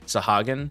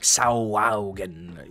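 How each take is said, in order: First: The word is said with plain, simple vowels. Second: The word is said with extra 'ow' vowel sounds. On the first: The speaker calls it right. "I said it to myself correctly" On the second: The speaker calls it wrong. "my brain wants to be like cre- do a lot of like ows"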